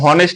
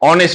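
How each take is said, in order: First: The word begins with an audible h sound. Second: The word begins directly with a vowel sound. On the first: The speaker calls it wrong. "কিন্তু আমরা তো হনেস্ট বলি না" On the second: The speaker calls it right. "অনেস্ট বলি"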